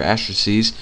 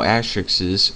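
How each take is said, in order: First: "asterisks" ending in a long -eez sound; alternative plural variant. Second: "asterisks" with an extra syllable, ending in -ixes; first plural variant. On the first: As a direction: say "asterisks" as AS-truh-seez. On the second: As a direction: say "asterisks" as AS-trick-siz. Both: Shown as a demonstration. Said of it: "I don't know how you say it".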